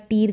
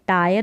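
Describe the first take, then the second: First: The vowel is a long 'ee' with 'r'. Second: The vowel is an 'eye' diphthong. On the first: The speaker calls it wrong. "इसको टीयर करके या टीर करके नहीं पढ़ेंगे" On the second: The speaker calls it right. "टायर इसका उच्चारण है"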